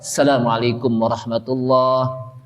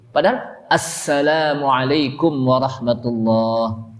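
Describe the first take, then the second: First: The opening 'as' sound is dropped. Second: The opening 'as' sound is clearly pronounced. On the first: The speaker calls it wrong. "Berarti asnya itu apa? Hilang" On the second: The speaker calls it right.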